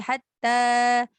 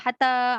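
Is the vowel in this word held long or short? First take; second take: long; short. First: The vowel is stretched out for two beats. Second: The vowel is cut short and said quickly. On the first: The speaker calls it right. "macam tu panjang sikit" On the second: The speaker calls it wrong. "laju je"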